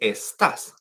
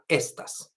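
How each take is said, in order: First: The stress is on the second syllable. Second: The stress is on the first syllable. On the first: The speaker calls it right. "because it's in the A, then we say estás" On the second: The speaker calls it wrong. "not estas, because that's a different word"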